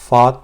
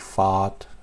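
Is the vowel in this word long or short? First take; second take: short; long. First: The vowel is short. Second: The vowel is drawn out long. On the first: The speaker calls it right. "It's fat, and it's not very long" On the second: The speaker calls it wrong. "Not like fat"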